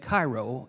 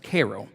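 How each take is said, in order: First: The name is said the usual outsider way. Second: The name is said the local district way. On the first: This is how someone reading the name would say it. "if you saw it, you would say Cairo" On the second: This is how people from the district say it. "unless you're from this district ... that's when you pronounce it as Cairo"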